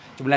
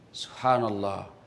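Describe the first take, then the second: First: It is said rushed and slurred. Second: It is said clearly and unhurried.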